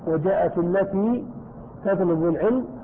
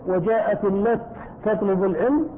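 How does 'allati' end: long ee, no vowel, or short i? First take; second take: long ee; no vowel. First: The word ends with a long ee vowel. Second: The word ends with no vowel after t. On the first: "لك أن تثبت الياء" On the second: "لك أن تسكن"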